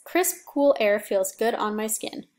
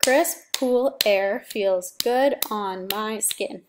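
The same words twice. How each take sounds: First: Said in the usual way. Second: "Crisp, cool air feels good on my skin" beat by beat, slow; slow syllable count. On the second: Shown as a demonstration. Teacher counts syllables for the class, slow and deliberate. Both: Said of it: "That's eight syllables".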